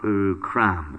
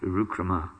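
First: The word ends on the consonant m. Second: The word ends on a final a vowel. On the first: The speaker calls it wrong. "It's not Urukram" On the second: The speaker calls it right. "it's Urukrama"

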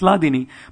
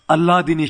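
First: The word begins directly with an 'l' sound. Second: The word begins with an added 'al' sound. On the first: It is read as giving pleasure. "It's Ladini" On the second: It is read as giving pleasure to Allah. "A lot of times devotees pronounce it as Alladini Shakti"

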